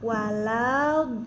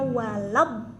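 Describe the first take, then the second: First: The final sound is drawn out long. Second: The final sound is cut off quickly. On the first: The speaker calls it wrong. "Nggak boleh walau, nah nggak boleh lama tuh" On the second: The speaker calls it right. "Jadi bacanya walab kayak gitu"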